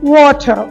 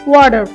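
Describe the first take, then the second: First: It is said with no final r sound. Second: It is said with a final r sound. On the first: "British অ্যাকসেন্টে হবে ওয়াটার ... শেষের আরটা উচ্চারিত হবে না" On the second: "আমেরিকানরা বলে ওয়াটার"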